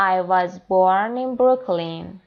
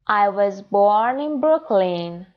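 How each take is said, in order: Both takes have the same delivery.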